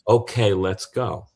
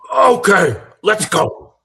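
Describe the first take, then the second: First: It is said plainly, without extra energy. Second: It is said with huge, exaggerated energy.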